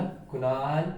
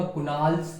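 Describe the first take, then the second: First: Said in the usual way. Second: कुणाल्स with an added s at the end; wrong plural name. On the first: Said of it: "मैंने बोला कुणाल ... ऐसे थोड़ी कहूंगा". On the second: Shown as a demonstration. Teacher showing how not to say a name, कुणाल्स ending in s. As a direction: tack an s onto कुणाल to make कुणाल्स. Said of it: "तो मैं ऐसे थोड़ी बोलूंगा".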